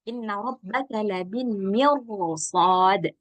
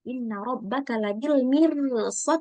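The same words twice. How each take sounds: First: The r in mirsad is heavy and thick. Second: The r in mirsad is light and thin. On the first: The speaker calls it right. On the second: The speaker calls it wrong.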